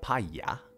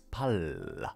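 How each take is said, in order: First: The middle consonant is a Y sound. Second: The middle consonant is an L sound. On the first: The speaker calls it wrong. "It's not paya" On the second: The speaker calls it right. "It's L. It's not yo"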